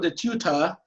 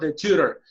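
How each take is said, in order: First: It is said with a British accent. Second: It is said with an American accent. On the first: "Si quieres ser británico" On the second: "Si quieres ser americano"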